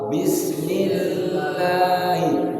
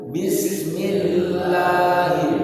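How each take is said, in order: No difference in how they are said.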